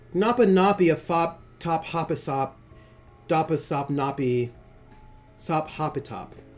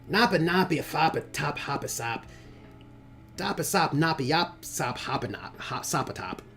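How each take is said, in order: First: It is said in a plain, normal voice. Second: It is said in a put-on character voice.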